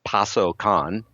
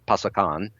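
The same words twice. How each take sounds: First: The word is said at a normal, careful pace. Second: The word is said quickly and run together.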